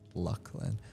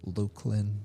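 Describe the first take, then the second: First: The first syllable sounds like luck. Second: The first syllable sounds like Luke. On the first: "I know it's Lucklin" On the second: "or you might say Luke"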